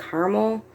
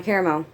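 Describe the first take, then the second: First: "caramel" clipped to two syllables, KAR-mel; "caramel" squeezed down to KAR-mul. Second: "caramel" said as care-a-mel, three syllables; "caramel" with all three syllables, KARE-a-mel. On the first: Explaining her usage, she says "caramel" as two-syllable carmel. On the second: Listing regional words, she says "caramel" as care-a-mel. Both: Shown as a demonstration. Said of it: "I pronounce them both differently".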